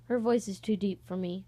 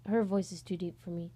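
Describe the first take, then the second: No difference in how they are said.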